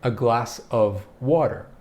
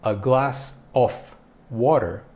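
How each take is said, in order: First: The word 'of' ends with a V sound. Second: The word 'of' ends with an F sound. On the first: The speaker calls it right. "We pronounce it of" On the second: The speaker calls it wrong. "So you wouldn't say"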